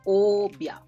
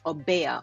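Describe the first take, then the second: First: The word is said with two syllables. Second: The word is said with more than two syllables. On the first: The speaker calls it right. "It's like it's two syllables" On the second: The speaker calls it wrong. "What I sometimes hear a person saying"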